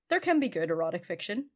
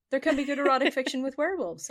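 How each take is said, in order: First: Said in the usual way. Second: CAN raised and louder; stress on CAN. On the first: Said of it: "first statement". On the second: Real, not acted. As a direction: lean on the word can. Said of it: "repeats claim with emphasis".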